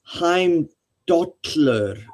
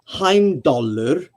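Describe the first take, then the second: First: The double L has a hissed lateral sound. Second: The double L is a plain L sound. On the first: "you'll hear Icelanders say" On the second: "it can be said like that"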